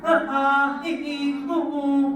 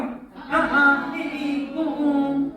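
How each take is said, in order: First: अ, आ, इ, ई, उ, ऊ recited as short then long pairs; vowel demo. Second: अ, आ, इ, ई, उ, ऊ as a mild imitation of crying; baby cry demo. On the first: Teacher recites the vowels for class, short-long pairs. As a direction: sound out अ, आ, इ, ई, उ, ऊ, holding each long one. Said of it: "चंद्र बिंदु हमारे स्वर हैं". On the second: Teacher shows how a baby cries, mild mock crying vowels. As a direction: mimic a baby's cry on अ, आ, इ, ई, उ, ऊ. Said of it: "रो के दिखाओ". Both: Shown as a demonstration.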